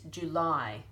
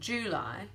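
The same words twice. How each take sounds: First: The stress is on the second syllable. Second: The stress is on the first syllable. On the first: The speaker calls it right. "We actually emphasize that ending" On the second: The speaker calls it wrong. "It's not July"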